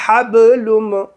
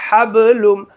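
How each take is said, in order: No difference in how they are said.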